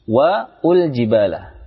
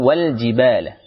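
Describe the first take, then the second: First: An extra 'u' vowel splits it into two syllables. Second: The article joins straight on as one syllable. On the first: The speaker calls it wrong. "Jangan membacanya wal wa ul jibala. Ini kurang tepat" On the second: The speaker calls it right. "langsung wal jibala"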